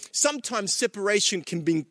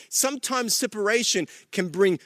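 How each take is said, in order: Both takes have the same delivery.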